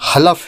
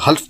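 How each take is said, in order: First: A short vowel separates the L and F. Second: The L and F run together with no vowel. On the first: The speaker calls it right. "दुरुस्त तलफ़ुज़ हलफ है" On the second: The speaker calls it wrong. "जिसे आम तौर से लोग हल्फ बोलते हैं, जो गलत है।"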